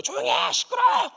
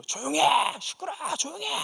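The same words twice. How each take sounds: First: High, louder imitated yell at full force; father's shout. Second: Higher mock yell, pitch climbing; father's retold shout. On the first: Father rushing in, yelling at them to shut up, loud. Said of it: "막 달려 소리를 지르신 거예요". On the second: Father yelling at the women to hush, mock shout. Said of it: "그분들한테 막 소리를 지르는 거예요".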